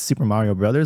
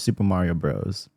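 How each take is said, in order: First: The last word is said in full as brothers. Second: The last word is shortened to one syllable, bros. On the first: "Do you pronounce this Super Mario Brothers" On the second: "or Super Mario Bros?"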